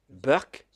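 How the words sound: Indian English: the word begins with a B sound.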